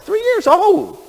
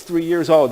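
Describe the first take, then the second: First: High, loud outraged exclamation; incredulous. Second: Said in the usual way. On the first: Acted. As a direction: stretch it out in high-pitched disbelief. Repeats it in mock outrage.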